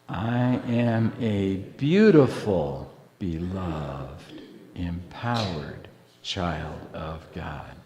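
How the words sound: The stress is on "beautiful".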